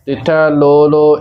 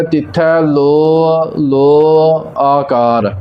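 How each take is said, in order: First: ਲੋ ਲੋ as quick bare "lo lo"; clipped final vowel. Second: Each ਲੋ drawn out as "lo-a", slowly; clear final vowel. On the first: Teacher showing the mistake, short bare ਲੋ ਲੋ. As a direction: run ਲੋ ਲੋ together without the final "a". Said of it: "ਇਸ ਪ੍ਰਕਾਰ ਉਚਾਰਨ ਨਹੀਂ ਕਰਨਾ". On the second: Teacher showing the pure reading, ਲੋ stretched into "lo-a". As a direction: sound a clear "a" after each long ਲੋ. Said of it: "ਐੜਾ ਲੱਗਾ ਹੈ ਇਸ ਦੀ ਆਵਾਜ਼ clear". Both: Shown as a demonstration.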